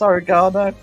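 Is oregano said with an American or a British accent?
British. It is said with a British accent. "if you say it properly"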